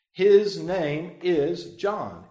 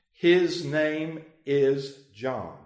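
First: Slow and louder, every word hammered; emphatic. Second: Every word spaced out slowly; slow and firm. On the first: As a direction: settle it with no room to argue. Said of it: "because he's very emphatic". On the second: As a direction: lay it down word by word. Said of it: "He asked for that writing tablet and wrote". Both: Shown as a demonstration.

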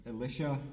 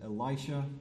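First: Said in the usual way. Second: Elisha said "ee-LIE-sha"; alternative pronunciation. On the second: Shown as a demonstration. Preacher offers another pronunciation, Elisha as "ee-LIE-sha". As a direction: say Elisha with a long "eye" in the middle. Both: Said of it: "as you may pronounce it".

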